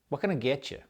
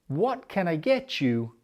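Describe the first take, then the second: First: It is said fast with words squashed together. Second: It is said slowly with every syllable clear.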